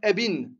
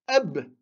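First: The word ends with an added 'in' sound. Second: The word ends on a bare consonant. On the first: The speaker calls it wrong. "ou bien ebin" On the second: The speaker calls it right. "On va dire eb"

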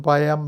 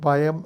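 The two takes are said the same way.

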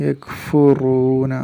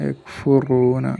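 The two takes are said the same way.

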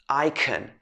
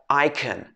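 No difference in how they are said.

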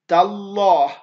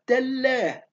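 First: The L sound is heavy and full. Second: The L sound is light and thin. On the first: The speaker calls it right. "لابد أن أقول تالله" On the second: The speaker calls it wrong. "ما ينفعش أقول لك تالله"

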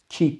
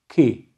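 First: The k is made forward near the tongue tip. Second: The k is made far back in the mouth. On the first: The speaker calls it wrong. "ki değil" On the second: The speaker calls it right. "Dil ortasının gerisine kef harfini reddetmemiz gerekiyor"

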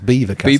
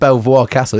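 First: The name is said like the word beaver. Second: The name is said as it is spelled. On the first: "it's Beaver Castle" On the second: "they say instead of Belvoir Castle"

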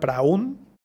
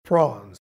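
First: The vowel sounds like 'ow' in 'cow'. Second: The vowel sounds like 'aw' in 'law'. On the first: The speaker calls it wrong. "Aquí ojo que no suena praun" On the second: The speaker calls it right. "La A W aquí suena como O"

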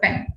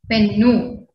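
First: The word ends on the consonant n. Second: The word ends with an added u vowel. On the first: The speaker calls it right. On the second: The speaker calls it wrong.

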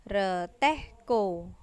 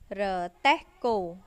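The two takes are said the same way.

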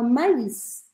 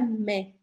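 First: The vowels are said separately, like ma-is. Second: The vowels merge into one sound, like mé. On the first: "você vai pronunciar solta a letra que tem o trema" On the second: "Você não vai juntar o som das duas letras, tipo M-A-I-S, a gente falaria mé"

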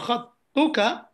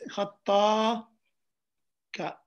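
First: A short vowel links the double t to k. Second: A long vowel and gap follow the double t. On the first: The speaker calls it right. "But there's no gap" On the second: The speaker calls it wrong. "You're reading it like this. Reading it as if there's an alif after the ta"

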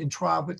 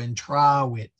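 First: The word is said quickly in running speech. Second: The word is drawn out slowly. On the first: The W sound is hard to tell from a V. "if you said reasonably quickly" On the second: The W sound is easy to hear. "if you stretch it out"

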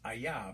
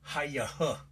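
First: The word begins with a vowel, no H. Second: The word begins with a sounded H. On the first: The H is treated as silent. The speaker calls it right. "But it's just Ayah" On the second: The H is treated as pronounced. The speaker calls it wrong. "Otherwise, it would be HAYAH"

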